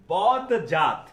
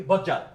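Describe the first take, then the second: First: বদজাত said slowly with its d; d pronounced. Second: বজ্জাত with doubled j, no d; assimilated form. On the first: Teacher contrasting the written form. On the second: Teacher giving the spoken form. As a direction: say বজ্জাত the natural way. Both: Shown as a demonstration. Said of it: "যেটাকে আমরা কি বলি".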